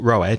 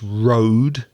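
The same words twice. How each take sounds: First: The vowel differs from the vowel in 'go'. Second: The vowel matches the vowel in 'go'. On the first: The speaker calls it wrong. "It's not road" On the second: The speaker calls it right. "it's road. The same sound as go or slow"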